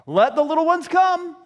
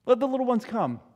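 First: High, loud insistent decree; loud raised-pitch appeal; emphatic command. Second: Said in the usual way. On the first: Acted. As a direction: proclaim it firmly to the whole group. Restated command, first loud.

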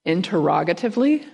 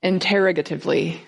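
First: "interrogatively" stressed on ROG, questioning rise at the end. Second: "Interrogatively" stressed on TER, without a questioning rise. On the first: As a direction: hit ROG in "interrogatively", lifting the end unsurely. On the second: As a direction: hit TER in "Interrogatively", saying it as settled. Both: Shown as a demonstration. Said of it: "right emphasis on the right syllables".

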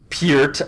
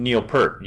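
First: "Peart" said like "peer-t"; corrected pronunciation. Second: "Peart" said like "pert"; Canadian pronunciation. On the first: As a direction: say "Peart" rhyming with "beard". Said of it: "I'm sorry". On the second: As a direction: say "Peart" rhyming with "hurt". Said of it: "It was my Canadian accent". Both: Real, not acted.

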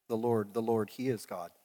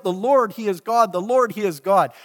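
First: Softer, lower retold cry; just recount the shout quietly; mild mock shout. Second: Loud, high proclamation of praise; crying out. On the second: Retold or imitated. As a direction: cry it out to the whole crowd. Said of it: "and cried out".

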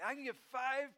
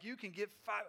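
First: High-pitched acted delight; amazed kid. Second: Said in the usual way. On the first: Kid hearing the clerk's answer, amazed and high-pitched. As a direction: echo it as a thrilled child, pitched up.

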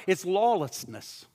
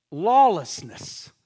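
First: Said in the usual way. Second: Lawlessness drawn out slowly, each syllable weighed; a solemn slow repeat of Lawlessness; slow emphatic repeat. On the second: Shown as a demonstration. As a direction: let Lawlessness sink in, slow and heavy. Preacher repeats the word slowly.

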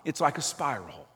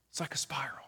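First: Said in the usual way. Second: Hushed whispered echo; soft whispered repeat of the image. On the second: Shown as a demonstration. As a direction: breathe the words out as a whisper.

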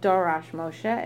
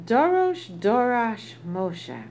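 First: Said in the usual way. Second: Dorosh Dorash drawn out slowly, each word weighted; emphatic repetition. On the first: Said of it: "if it said Dorash Moshe". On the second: Shown as a demonstration. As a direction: lean hard on Dorosh Dorash, slow and emphatic. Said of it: "is exceedingly emphatic".

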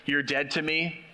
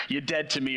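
First: Said in the usual way. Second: Thick New York accent, blunt and final. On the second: Shown as a demonstration. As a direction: say it like a tough New York wiseguy. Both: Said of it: "thick New York accent".

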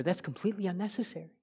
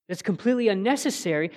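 First: Completely unnecessary said softly, almost under the breath; hushed, quick first statement; soft first take. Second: "completely" leaned on, firm and quick; firm, insistent second take; emphatic repeat. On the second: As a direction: restate it with force on "completely". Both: Shown as a demonstration.

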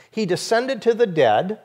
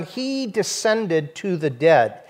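First: Said in the usual way. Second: He descended to the dead drawn out slowly, each word weighted; slow emphatic quote. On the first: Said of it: "Remember I mentioned the two phrases". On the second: Shown as a demonstration. Preacher singling out the creed phrase, slow and weighted. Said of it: "The second emphasis here is on".

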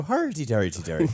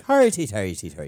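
First: Stock Irish lilt on hardy, hardy; a quick jokey Irish accent, pitched up; Irish accent tag thrown in for a laugh; Irish dialect. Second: Irish brogue on hardy, a bit louder; demonstrating the stock Irish ending; Irish dialect. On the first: Retold or imitated. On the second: Shown as a demonstration. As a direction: belt out the Irish tag line. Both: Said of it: "my end for an Irish dialect".

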